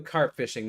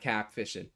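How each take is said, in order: First: The R in carp is clearly pronounced. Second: The R in carp is dropped. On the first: "I don't really have that" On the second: "your R's end up becoming A's"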